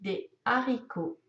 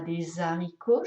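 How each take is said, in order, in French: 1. Les mots restent séparés, sans son de liaison. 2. Un son z se lie au mot suivant. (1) "Je dis des haricots" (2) "Je ne dis pas des haricots, je ne peux pas faire la liaison"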